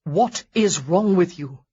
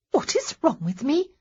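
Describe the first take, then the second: First: Slow, louder, stress on is; blunt demand. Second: Much higher, rising in disbelief; indignant echo. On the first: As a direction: demand it heavily and slowly. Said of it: "absolutely ill-advised". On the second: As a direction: throw the question back, affronted. Honoria throws question back. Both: Acted.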